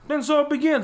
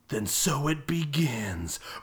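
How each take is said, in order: First: The line is delivered lightly and casually. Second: The line is delivered slowly and dramatically. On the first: It sounds like a cheerful invitation to play. The speaker calls it wrong. "But he does those lines with, like" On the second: It is meant as a cool, menacing threat. The speaker calls it right. "That line's supposed to be, like, a pause, zoom in"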